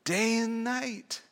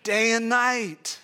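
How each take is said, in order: First: Day and night, slow and soft, DAY stressed and falling; slow stressed phrase. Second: Day and night, each word slow and weighed, NIGHT falling; slow stressed phrase. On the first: Preacher answering how often, slow soft stressed Day and night. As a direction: answer your own question slowly. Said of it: "Meditating on it, how often?". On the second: Preacher to congregation, slow stressed day and night. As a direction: lean on day and night, slowly. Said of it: "He meditates on it". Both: Shown as a demonstration.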